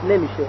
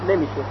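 The two takes are said the same way.

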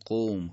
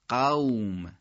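First: The vowel is a rounded 'o' sound. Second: The vowel is an open 'a' sound. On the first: "تو فارسی به حالت او میگیم، به حالت ذمه میگیم" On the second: "در عبارت عربی فصیح و در قرآن میگیم قوم"

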